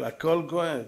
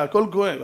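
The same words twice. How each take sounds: First: הכל כואב said softer, sinking low. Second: Said in the usual way. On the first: Shown as a demonstration. Preacher sighing that everything hurts, softer. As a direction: let הכל כואב fall away quietly.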